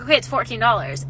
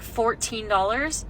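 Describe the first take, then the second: First: Said in the usual way. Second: "Fourteen dollars" drawn out slowly into a question; incredulous questioning echo. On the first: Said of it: "the cashier was like". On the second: Retold or imitated. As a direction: repeat "Fourteen dollars" slowly, rising in disbelief. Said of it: "looks at me and he was like".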